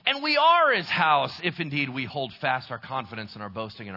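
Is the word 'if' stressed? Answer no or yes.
no. The word 'if' is not given extra stress. Holding fast is evidence of already being saved. "here's how it would sound if I was to read it that way"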